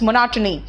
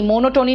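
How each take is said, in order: First: The unstressed middle vowels are short and reduced. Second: Each vowel is pronounced as a full o sound. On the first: The speaker calls it right. "It's मोनोटनी" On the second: The speaker calls it wrong. "मोनोटोनी नहीं बोलते"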